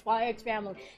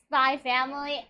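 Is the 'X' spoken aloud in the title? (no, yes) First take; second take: yes; no. First: The title is said with the X spoken. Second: The title is said with the X silent. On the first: The speaker calls it wrong. "not Spy X Family" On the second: The speaker calls it right. "it's Spy Family"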